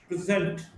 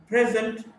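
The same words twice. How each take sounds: First: "present" as pri-ZENT; weak start, strong ZENT in "present"; stress on second syllable. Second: "present" as PREZ-ent; stress on first syllable. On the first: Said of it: "stressed in the second syllable". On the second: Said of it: "stressed in the first syllable". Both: Shown as a demonstration.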